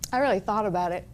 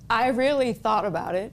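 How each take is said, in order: First: It is said at a normal, quicker pace. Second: It is said very slowly, word by word.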